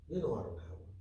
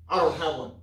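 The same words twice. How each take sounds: First: Said in the usual way. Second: Don't punched louder with a falling tune; stress on don't. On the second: Retold or imitated. Preacher repeating the woman's denial with stress on don't. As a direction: hit don't hard, then drop.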